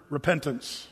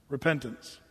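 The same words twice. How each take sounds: The two takes are said the same way.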